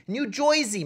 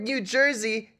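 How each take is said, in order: First: New Jersey native saying "JOY-zee" for Jersey; demonstrating New Jersey as "New Joisey"; New Jersey accent. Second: Said in the usual way. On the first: Shown as a demonstration. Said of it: "that's how you say the word New Jersey in New Jerseyan". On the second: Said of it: "that's how you say the word New Jersey".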